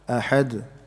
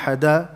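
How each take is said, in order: First: The final d has a slight echoing bounce. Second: The final d is followed by a full vowel. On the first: The speaker calls it right. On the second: The speaker calls it wrong.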